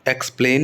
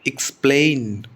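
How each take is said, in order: First: The stress is on the first syllable. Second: The stress is on the second syllable. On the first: The speaker calls it wrong. "Explain नहीं होता" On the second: The speaker calls it right. "Spleen पर stress आएगा"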